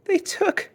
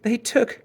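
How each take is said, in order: First: Put-on even higher, breaking child's voice; angry, can hardly speak. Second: Put-on high, halting angry child; angry, choked up. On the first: Angry cub repeating herself to mother, higher and choked. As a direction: push it out, choking on anger. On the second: Angry cub struggling to tell her mother, halting. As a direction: stumble over the words in anger. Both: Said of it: "Sister was so angry she could hardly speak".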